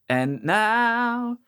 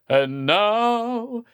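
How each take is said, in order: First: The voice is only somewhat dark, less extreme. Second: The voice is ridiculously dark and extreme.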